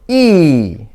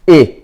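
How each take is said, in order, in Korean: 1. 길고 긴장된 모음이에요. 입술을 옆으로 벌려요. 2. 짧고 힘을 뺀 모음이에요. 입을 살짝 벌려요. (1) "장모음 ... 양입술을 옆으로 벌리고 입을 조금만 벌려서 바람이 쭉 빠져나가게 한다" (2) "단모음 ... 입을 좀 약간 벌리고 ... 턱에 약간 힘을 빼고"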